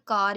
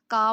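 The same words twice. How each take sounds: First: कार with its final R pronounced; कार, sounding the R at the end; American pronunciation. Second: का, the final R left off; का ending on the vowel, no R; British R-dropping. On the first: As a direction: say कार American-style, R kept. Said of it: "American English में word कार ही बोला जाता था". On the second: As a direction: say "car" British-style as का. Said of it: "आर को drop कर दिया". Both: Shown as a demonstration.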